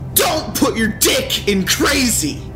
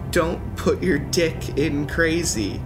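First: The line is screamed loudly with a raised voice. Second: The line is said at a normal, calm volume. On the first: "His voice raises and he is actually screaming" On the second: "You didn't want to scream it?"

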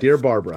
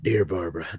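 First: It is read in the speaker's plain voice. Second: It is read in a Chevy-commercial announcer voice.

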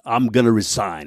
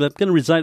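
First: It is said as a weighty, dramatic statement. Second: It is tossed off casually, almost in passing.

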